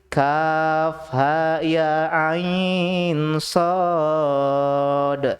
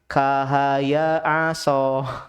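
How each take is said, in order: First: Each letter is named separately in full. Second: It is read as short joined syllables. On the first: The speaker calls it right. "Cara bacanya bukan kahaya aso, tapi" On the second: The speaker calls it wrong. "dia baca begini"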